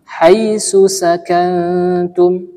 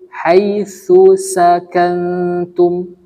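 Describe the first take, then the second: First: Both key consonants are said as an s sound. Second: A th sound comes first, then an s sound. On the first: The speaker calls it wrong. "Jangan sampai kita baca huruf sa dengan huruf sin" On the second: The speaker calls it right. "Yang benar huruf sa pertama, huruf sin kedua"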